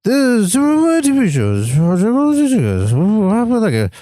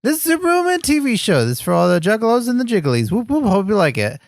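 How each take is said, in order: First: Fast, slurred run of noise; quoting Superhuman. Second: Quick catchphrase read with a high start. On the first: Retold or imitated. Quoting him for a doubtful friend, garbled impression. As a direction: rattle it off unintelligibly in a swooping put-on voice. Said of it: "but I'll quote him". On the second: Shown as a demonstration. Reminding a friend of the catchphrase, reading it out. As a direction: read the intro straight, words distinct. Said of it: "I was just reading it".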